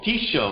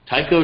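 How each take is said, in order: First: The middle consonant is an 'sh' sound. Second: The middle consonant is a 'k' sound. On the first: The speaker calls it right. "Tisho uh, was uh, was my takeaway" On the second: The speaker calls it wrong. "so that was my pronunciation"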